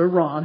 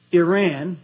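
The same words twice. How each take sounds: First: Iran said as "ee-RAHN", open a, stress on second syllable; "Iran" with short ee and broad rahn, falling; Persian-style Iran. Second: Iran said as "EYE-ran", first syllable like eye, flat a; "Iran" with long I and flat ran, rising; American Iran. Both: Shown as a demonstration. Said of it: "however you say that".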